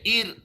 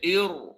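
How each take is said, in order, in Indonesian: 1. R-nya tipis, dengan pangkal lidah diturunkan. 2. R-nya tebal, dengan pangkal lidah dinaikkan. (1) "tak boleh baca ir, salah" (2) "Kena baca ir"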